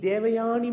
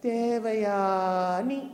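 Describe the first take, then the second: First: The word is said quickly and smoothly. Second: The word is said slowly and drawn out. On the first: She looks like the film star. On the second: Do I even need you?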